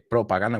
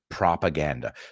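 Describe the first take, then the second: First: The first syllable sounds like 'pro'. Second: The first syllable sounds like 'prah'. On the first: This is how the listeners say it. "You say propaganda" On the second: This is how the speaker's own group says it. "we say propaganda"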